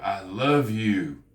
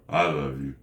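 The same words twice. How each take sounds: First: Slow, drawn-out heartfelt declaration; slow and sincere. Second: Low, quick throwaway; dropped-pitch, unfeeling delivery; insincere. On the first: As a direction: linger on it like you mean it. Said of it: "it sounds like I mean it". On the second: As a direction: say it without meaning it. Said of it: "it's how you say it". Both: Shown as a demonstration.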